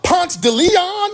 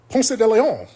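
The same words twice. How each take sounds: First: The name is pronounced in a relaxed local way. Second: The name is pronounced carefully, fully enunciated. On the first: This is how people in the city say it. The speaker calls it right. "that's how y'all say it" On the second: This is the textbook way learned in school. The speaker calls it wrong. "I'm saying it like I learned it in school"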